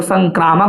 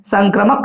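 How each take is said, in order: First: संक्रामक said with a long "aa", san-KRAA-mak; long middle vowel. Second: संक्रमक said with a short "a", san-kra-mak; short middle vowel. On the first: Teacher cites what many people say, संक्रामक with long "kraa". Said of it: "कई लोग संक्रामक बोलते हैं". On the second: Teacher tells students what to say, संक्रमक with short "kra". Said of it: "संक्रमक कहिएगा". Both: Shown as a demonstration.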